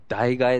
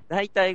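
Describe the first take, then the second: First: The word is pronounced daigae. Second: The word is pronounced daitai. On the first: This is the reading most people use today. "最近の日本人はもうみんな代替えって呼んでる" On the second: This is the original, traditional reading. "本来の読み方"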